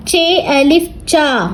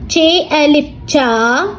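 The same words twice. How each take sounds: The two takes are said the same way.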